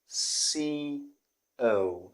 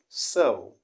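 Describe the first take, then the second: First: It is said as 'C O'. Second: It is said as 'so'. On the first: The speaker calls it wrong. "many people do call the city C O" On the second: The speaker calls it right. "the correct pronunciation of the city is not C O, but rather so"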